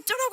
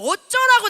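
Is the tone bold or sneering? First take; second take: sneering; bold. First: It sounds defensive and sneering. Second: It sounds bold and openly proclaimed. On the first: Someone criticized me and I am brushing them off. The speaker calls it wrong. "비아냥거리고 막 이런 게 아니라요" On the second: The world's judgment does not matter to me. The speaker calls it right. "세상을 향해서 얘기하는 거예요"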